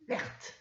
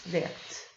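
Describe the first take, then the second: First: Said in the usual way. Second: Vertes whispered softly. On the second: Shown as a demonstration. Teacher showing pupils the word, whispered.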